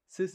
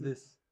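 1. Das Wort beginnt mit einem einfachen s-Laut. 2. Das Wort beginnt mit einem th-Laut. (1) "sis is statt this" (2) "So dieses TH"

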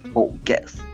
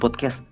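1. Kata itu diucapkan dengan aksen Inggris. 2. Kata itu diucapkan dengan aksen lokal yang biasa. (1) "harus pakai nada British gitu deh" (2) "Salah itu bro"

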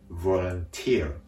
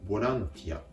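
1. アクセントは最後の音節にある。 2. アクセントは最後の音節の前にある。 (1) "語末にアクセントがあることに注意です" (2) "日本語ではボランティアとなるんですけれども"

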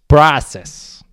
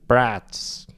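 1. Слово с британским акцентом. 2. Слово с американским акцентом. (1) "По-английски, если" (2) "По-американски"

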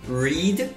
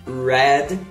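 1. A vogal é longa, como em 'reed'. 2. A vogal é curta, como em 'red'. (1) "Read no presente" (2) "read no passado"

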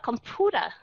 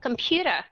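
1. Nguyên âm sau p đọc giống 'oo' thường. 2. Nguyên âm sau p đọc giống 'yoo'. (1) "chứ không phải là computer" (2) "Computer chứ không phải là"

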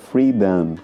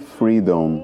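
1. A última sílaba tem uma vogal parecida com 'a'. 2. A última sílaba tem um 'o' pleno. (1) "como se fosse com um A mesmo no final" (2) "Apesar de escrever Freedom com O-M no final, a gente não pronuncia freedom"

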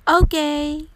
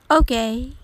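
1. 自信と熱意を込めて、強く賛成する感じで言われています。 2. ためらいがちに、感心していない疑いの気持ちで言われています。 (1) "ポジティブな意味でバッチリですという気持ちを込めて" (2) "珍しい飲み物を初めて飲んで微妙だったとき"

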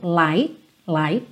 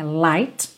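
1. O T final é quase inaudível. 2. O T final é claramente pronunciado. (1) "o T do light quase não é audível" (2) "não fica light"

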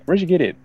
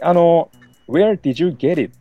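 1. 単語は短く縮めて、続けて発音する。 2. 一語ずつはっきり区切って発音する。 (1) "一個一個こうはっきり発音するんじゃなくて" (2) "あんまりWhere did you get it? みたいな感じでこう、なんだろう、すごい言わない"

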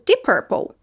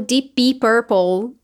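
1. As duas palavras saem juntas, com fluidez. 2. As duas palavras são ditas separadamente. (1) "eu falo embalado" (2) "eu não falo Deep Purple"

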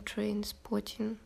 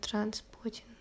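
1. В первом слоге долгий гласный 'ay'. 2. В первом слоге короткий гласный 'a'. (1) "короче, там «trainspotting»" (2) "я все время неправильно произносила"

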